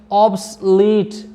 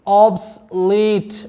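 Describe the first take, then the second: The two takes are said the same way.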